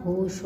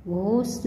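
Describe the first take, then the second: First: Said in the usual way. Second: घोष ending in s instead of sh; mispronounced. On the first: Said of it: "होता है". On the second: Shown as a demonstration. Teacher showing students an error, घोष mispronounced "ghos". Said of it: "नहीं होता".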